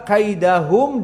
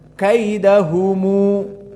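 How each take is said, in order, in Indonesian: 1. Kata ini berakhir dengan bunyi m polos. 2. Huruf m terakhir diikuti tambahan u.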